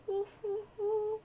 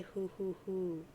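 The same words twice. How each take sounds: First: Very high, airy owl-like hoots; high hooting. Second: Said in the usual way. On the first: Acted. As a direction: hoot playfully in a high grandmother voice. Nana hoots in reply.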